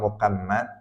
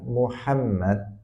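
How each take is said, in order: First: The name is pronounced with distorted sounds. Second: The name is pronounced in its full standard form. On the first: The speaker calls it wrong. "dia bisanya Muhammad atau Muhammad" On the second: The speaker calls it right. "dia tidak bisa mengatakan Muhammad misalnya"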